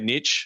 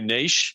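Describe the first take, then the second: First: The word is pronounced in an American way. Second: The word is pronounced in a non-American way. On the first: "my friends in the U S would say niche" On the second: "what I would say niche"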